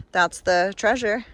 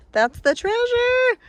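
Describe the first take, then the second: First: Said in the usual way. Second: High, slow, drawn-out exclamation; excited sing-song. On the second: Real, not acted. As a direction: sing it out with delight.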